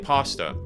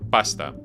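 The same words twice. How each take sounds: First: The word is said with an English pronunciation. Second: The word is said with an Italian pronunciation. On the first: The speaker calls it wrong. "That's how I say it" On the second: The speaker calls it right. "in Italian it's pasta"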